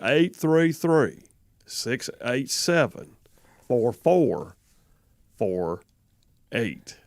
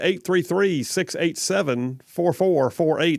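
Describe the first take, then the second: First: The number is read slowly. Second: The number is read fast.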